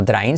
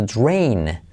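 First: DRAIN with a Spanish tapped R; wrong pronunciation. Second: DRAIN with a rounded U glide, "drwain"; corrected pronunciation. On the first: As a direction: say "drain" learner-style, no U after the D. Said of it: "se dice no drain". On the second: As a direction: round the lips through the "dr" of DRAIN, drawn out. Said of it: "sino drain". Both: Shown as a demonstration.

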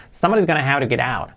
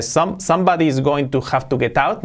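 First: "Somebody's gonna have to get out" run together, t's softened to flaps; connected casual pronunciation. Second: "Some-, somebody is going to have to get out" with every word separate and hard t's; over-enunciated wrong way. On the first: Teacher giving students the correct version, linked and reduced. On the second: Teacher showing students what Homer doesn't say, over-enunciated. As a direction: say "going to" and "get out" in full, stiff Spanish-style. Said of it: "Fijaos que no dice". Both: Shown as a demonstration.

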